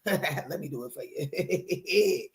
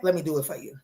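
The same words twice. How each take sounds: First: Slow, softer, giggling mock drama; playful laughing self-parody; mock-dramatic laugh. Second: Said in the usual way. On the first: Shown as a demonstration. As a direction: ham up the line while laughing. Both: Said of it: "[name] just get a little dramatic".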